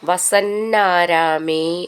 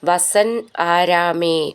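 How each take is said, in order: First: The two words are joined into one. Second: The two words are said separately.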